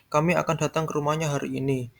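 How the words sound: The stress falls on the word kami. It is these people coming, not others. "Yang akan datang kami, bukan orang lain"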